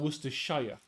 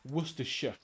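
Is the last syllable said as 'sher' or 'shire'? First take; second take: shire; sher. First: The last syllable is a full 'shire'. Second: The last syllable is a reduced 'sher'. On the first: The speaker calls it wrong. "not Worcestershire for the sauce" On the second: The speaker calls it right. "it's Worcestershire"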